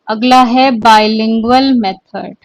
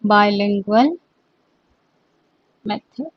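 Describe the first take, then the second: First: Said in the usual way. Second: The words bilingual method set apart and spaced; dictating bilingual method softly and slowly; slow dictation. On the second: Shown as a demonstration. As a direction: say bilingual method slowly so students can write it. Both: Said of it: "repeated slowly for dictation".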